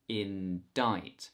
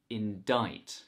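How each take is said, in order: Both takes have the same delivery.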